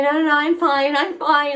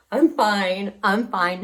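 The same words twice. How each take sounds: First: High, loud brushing-off; insistent reassurance. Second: Said in the usual way. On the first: Retold or imitated. Shaken cyclist tells girl she's fine, insisting. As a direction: wave off the concern, pitched up.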